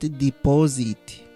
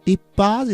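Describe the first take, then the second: First: The stress is on the first syllable. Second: The stress is on the second syllable. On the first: The speaker calls it wrong. "not deposit" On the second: The speaker calls it right.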